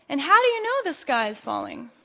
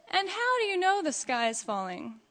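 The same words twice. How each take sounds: First: Said in the usual way. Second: Higher, softened sly question; storybook fox's sly asking. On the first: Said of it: "Each one wanted to know". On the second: A narrator's reading. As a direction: ask it with crafty, feigned curiosity. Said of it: "who slyly asked".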